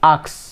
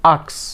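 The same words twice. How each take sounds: Both takes have the same delivery.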